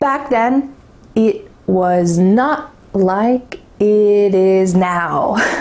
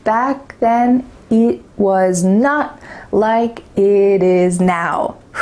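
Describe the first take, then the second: No difference in how they are said.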